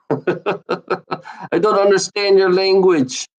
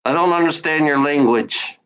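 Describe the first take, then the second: First: Slow, laughing put-on; mock them through a laugh; slow giggling mockery. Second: Said in the usual way. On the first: Shown as a demonstration. Mocking with laugh.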